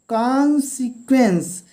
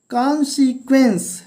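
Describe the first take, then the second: No difference in how they are said.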